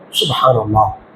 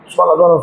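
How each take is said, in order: First: It is said slowly and calmly. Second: It is said hurriedly, without calm.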